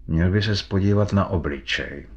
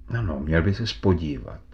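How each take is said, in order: First: Slightly choked, held-back delivery; hint at a tightened throat; strangled voice. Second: "měl by ses podívat" repeated with understated insistence; mild emphasis. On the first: McFarlane urges Fitz to look at the face, slightly strangled voice. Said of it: "řekl jakýmsi přiškrceným hlasem". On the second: McFarlane insists that Fitz look, "měl by ses podívat" mildly emphasised. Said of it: "zdůraznil". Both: A narrator's reading.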